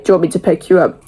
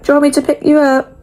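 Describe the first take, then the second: First: Said in the usual way. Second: High, quick gentle grandma voice; lightly voiced caring nan; nan's caring question. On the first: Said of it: "the last time she'd say". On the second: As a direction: mimic nan offering a lift. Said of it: "She's like".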